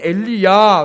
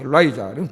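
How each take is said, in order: First: The second syllable has an 'ee' vowel. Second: The second syllable has an 'eye' vowel. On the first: This is how we say it. "우리는 엘리야" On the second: This is how English speakers say it. "걔네는 엘라이자, 이렇게"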